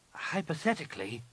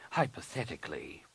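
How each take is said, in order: First: Higher, unsure rising Hypothetically; hesitant. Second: Said in the usual way. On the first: A narrator's reading. Nen Yim answers her master, hesitant rising echo. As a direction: test the word Hypothetically with a tentative lift. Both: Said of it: "Nen Yim said hesitantly".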